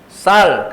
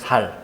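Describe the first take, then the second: First: The word begins with a tense s sound. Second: The word begins with a plain s sound.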